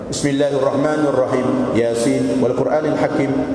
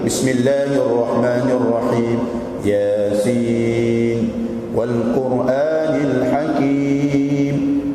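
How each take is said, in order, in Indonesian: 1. Dibaca cepat. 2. Dibaca pelan dan hati-hati. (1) "Cepat, tak kesan hati" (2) "apabila kita baca dengan tartil"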